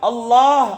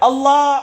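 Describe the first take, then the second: No difference in how they are said.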